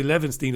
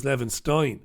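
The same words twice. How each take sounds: First: "Levenstein" said LEVEN-steen; "Levenstein" with an ee in the last syllable; EEN ending. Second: "Levenstein" said LEVEN-stine; "Levenstein" with an eye vowel in the last syllable; INE ending. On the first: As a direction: end "Levenstein" like seen. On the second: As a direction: end "Levenstein" like line. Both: Shown as a demonstration. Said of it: "Levenstein as Levenstein".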